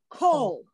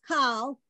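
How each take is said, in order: First: The vowel is a long 'oh' sound. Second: The vowel is an open 'ah' sound. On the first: The speaker calls it right. "This word is pronounced kol" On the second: The speaker calls it wrong. "If you read this as kal, I will tell you wrong"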